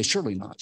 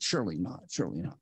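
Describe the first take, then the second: First: Said in the usual way. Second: Softer each time, dying away to near silence; repeated surely not trailing off much softer; fading to a hush. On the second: Shown as a demonstration. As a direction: let the doubt fade out into nothing. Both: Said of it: "And we say".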